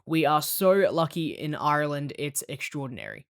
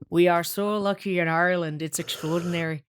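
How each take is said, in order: First: It is said in the speaker's plain accent. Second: It is said in an Irish accent.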